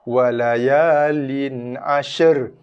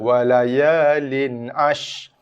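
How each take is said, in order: First: The sh and r are blended into one sound. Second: The final r is not sounded at all. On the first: "shin dengan ra dicantum" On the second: "Tak bunyi ra langsung, salah"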